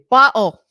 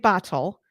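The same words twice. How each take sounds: First: It is said in a Northeast Pennsylvania accent. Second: It is said in a general American accent. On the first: This is how locals of the region say it. "we say bottle. ... as we say in Northeast Pennsylvania" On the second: This is how people outside the region say it. "We don't say bottle"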